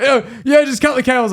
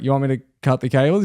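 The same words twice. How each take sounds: First: High, urgent panicked insistence; imitated frantic supervisor, pitched high; full stressing. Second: Said in the usual way. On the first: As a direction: order it in a fluster. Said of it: "he's, like, full stressing". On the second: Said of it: "perfectly calm".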